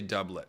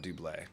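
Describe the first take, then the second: First: The word is pronounced the English way. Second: The word is pronounced the French way. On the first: The speaker calls it right. "we say doublet" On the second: The speaker calls it wrong. "the classic French pronunciation is wrong"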